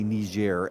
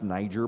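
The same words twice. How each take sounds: First: The name is said in a non-American way. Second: The name is said the American way. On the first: This is the form pushed by the media. The speaker calls it wrong. "I'm not going to say Niger, as some people on the media are intending that everyone should say" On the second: This is the form Americans use. The speaker calls it right. "It's pronounced Niger by Americans"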